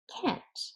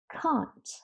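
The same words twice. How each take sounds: First: The word has an American-accent vowel. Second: The word has a British-accent vowel. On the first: "If you're referring to American English, then you say can't" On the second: "But British people say it can't"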